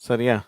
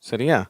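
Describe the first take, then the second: The two takes are said the same way.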